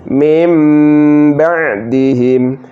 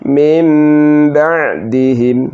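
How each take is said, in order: Both takes have the same delivery.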